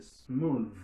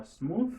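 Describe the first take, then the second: First: "smooth" ending on a long buzzing th, falling; voiced final th. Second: "smooth" wrongly ending on a voiceless th; voiceless th mistake. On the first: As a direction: voice the th of "smooth" firmly. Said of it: "les sonores". ("smooth" ak th sonò) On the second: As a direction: say "smooth" with no buzz on the th, rising. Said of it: "C'est pas smooth". ("smooth" ak th san vwa) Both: Shown as a demonstration.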